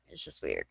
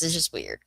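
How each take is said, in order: First: It's just weird said much lower and softer; low mutter. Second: Said in the usual way. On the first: Shown as a demonstration. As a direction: drop It's just weird way down, almost to yourself. Repeats remark, second dropped low.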